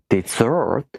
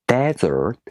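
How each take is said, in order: First: Dessert stressed on SERT; stress on second syllable. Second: Desert stressed on DES; stress on first syllable. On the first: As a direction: say dessert as de-ZERT, second syllable strong and long. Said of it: "if you stress the second syllable". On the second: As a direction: say desert as DEZ-ert, first syllable strong. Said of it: "if you stress the first syllable". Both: Shown as a demonstration.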